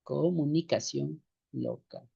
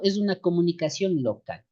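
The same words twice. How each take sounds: First: Slow and softer, word by word; slow dictation. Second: Said in the usual way. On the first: Shown as a demonstration. Teacher repeats the definition for copying, slow and soft. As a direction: dictate it gently for note-taking.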